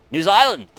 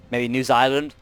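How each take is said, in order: First: New Zealand cried out in a bad Australian accent, higher; hammed-up Australian accent on New Zealand; terrible Australian accent. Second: Said in the usual way. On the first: Gamer hopes to meet New Zealand, bad Australian accent. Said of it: "a terrible Australian accent for New Zealand". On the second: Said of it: "I totally did, like, a terrible Australian accent".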